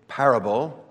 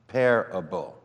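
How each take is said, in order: First: The first syllable is said the usual way. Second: The first syllable sounds like the word pair. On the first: "Most of us pronounce parable as I just did" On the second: "But what if we pronounced it parable?"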